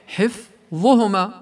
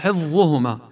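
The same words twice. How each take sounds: First: The f sound is held briefly before the next consonant. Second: The f sound is rushed straight into the next consonant. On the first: The speaker calls it right. "والصحيح حفظهما ... تتأنى على الفاء" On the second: The speaker calls it wrong. "كأنه بده يفوت على الضاء مباشرة"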